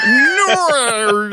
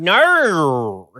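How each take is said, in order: First: "No" very high and loud, stretched through many vowels; mock the Aussie "No", hugely overdone; mimicked Australian "No". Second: "No" stretched into gliding Australian vowels; louder, long drawn-out Aussie "No"; exaggerated Australian "No". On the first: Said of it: "vowels in that no". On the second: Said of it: "We tell our children".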